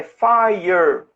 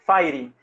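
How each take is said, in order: First: "fire" said as FAI-er with a retroflex English R; slow model "fire", fai-yer, no final ee; correct English pronunciation. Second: "fire" said as FAI-ree, tapped R and final ee; low, falling "fai-ri" for "fire"; Brazilianized mispronunciation. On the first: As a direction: draw out "fire" slowly, ending in -er. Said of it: "fogo em inglês é fire". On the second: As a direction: make "fire" end in a Portuguese -ri. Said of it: "eu também falava fire". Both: Shown as a demonstration.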